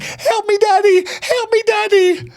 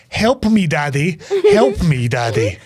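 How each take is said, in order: First: High-pitched hammed-up scream for help; drawn-out falsetto mock scream. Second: Half-hearted mock cry for help; retold scream at moderate volume. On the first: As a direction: imitate a squealing, panicked cry. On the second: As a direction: imitate a plea, each one falling away. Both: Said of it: "just starts screaming".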